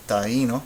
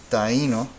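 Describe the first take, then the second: No difference in how they are said.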